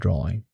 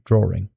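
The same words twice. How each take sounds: First: No R sound links draw and the ending. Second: An R sound links draw and the ending. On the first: This is how a neutral American accent says it. "We would say drawing" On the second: This is how some English and Western European accents say it. "which is something that does happen in in places like certain places in England"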